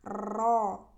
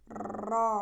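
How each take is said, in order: First: The r has a long, heavy trill. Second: The same.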